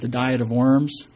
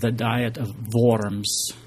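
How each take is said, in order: First: The name is said with English pronunciation. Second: The name is said with German pronunciation. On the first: The speaker calls it wrong. "otherwise it sounds like, you know, it's like right up there with the Jenny Craig diet" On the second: The speaker calls it right. "It sounds better if you say it with the German pronunciation"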